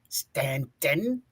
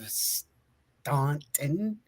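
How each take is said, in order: First: The first vowel is said like 'a' in 'cat'. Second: The first vowel is said like 'aw' in 'saw'. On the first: "It's actually pronounced as Stanton" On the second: "it's spelled Staunton"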